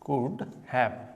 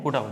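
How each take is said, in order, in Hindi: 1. दोनों शब्द पूरे बोले जाते हैं, 'could have'। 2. शब्द 'could've' में संक्षिप्त हो जाते हैं। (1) "इसको प्रोनाउंस कैसे करते हैं, जैसे कि कुड हैव" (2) "इसको प्रोनाउंस कैसे करते हैं, कुड अप। ... अब कुड हैव नहीं बोल रहा ना"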